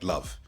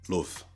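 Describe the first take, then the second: First: The vowel is the standard English one. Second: The vowel is the Manchester accent one.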